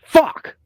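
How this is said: The word is said in an angry tone.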